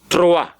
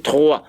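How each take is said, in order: First: The R is made toward the front of the mouth. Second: The R is made deep in the throat. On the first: This is how it is said in Africa. "In Africa, we say Troa" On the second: This is how the French say it. "They are pronouncing the R from inside their gullet"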